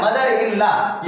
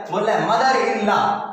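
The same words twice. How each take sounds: First: Mother in law said slowly for the class; slow teacher repetition; slow repeat. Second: Said in the usual way. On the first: Shown as a demonstration. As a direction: drag it out so pupils follow. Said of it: "क्या बोल रहा है?". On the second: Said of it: "board में देखिएगा".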